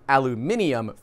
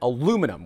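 First: It is said in the British form. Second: It is said in the American form.

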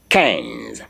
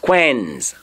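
First: The word begins with a plain k sound. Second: The word begins with a kw sound. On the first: The speaker calls it right. "what I'm hearing is K E N Z" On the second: The speaker calls it wrong. "which is not the correct pronunciation"

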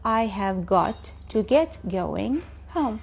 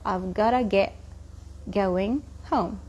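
First: Every word of 'have got to' is said fully. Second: It is shortened to 'I've gotta'. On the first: "بدل I have got to" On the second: "كتير الـ English speakers بيحبوا يختصروا"

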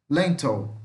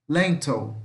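Both takes have the same delivery.

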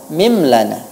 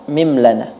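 The two takes are said the same way.

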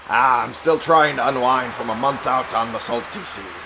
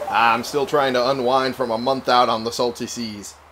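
First: It is said in a put-on pirate accent. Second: It is read in a plain, normal voice.

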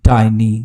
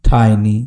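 Both takes have the same delivery.

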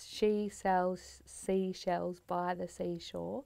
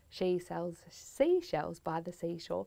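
First: It is said slowly. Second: It is said quickly.

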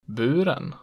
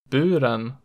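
First: The pitch peaks just after the stressed vowel. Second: The pitch peaks on the stressed vowel. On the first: "just after it in accent 2" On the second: "peaking on the stressed vowel in accent 1"

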